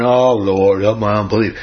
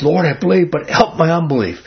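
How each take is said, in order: First: Lower, bored, as if yawning through the words; yawned prayer. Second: An earnest, pleading cry to the Lord; desperate plea. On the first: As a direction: say it like you can barely be bothered. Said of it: "this guy didn't yawn". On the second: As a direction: beg as if you truly need help. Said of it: "Man, this guy's desperate". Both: Retold or imitated.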